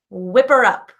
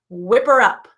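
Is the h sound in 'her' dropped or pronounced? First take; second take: dropped; dropped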